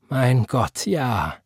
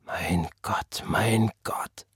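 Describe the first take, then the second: First: Said in the usual way. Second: Slow, hushed whisper. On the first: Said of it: "sagte Tante Florence". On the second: A narrator's reading. Father whispers to God after the beating, hushed. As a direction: whisper it low, as if to yourself. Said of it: "flüsterte sein Vater".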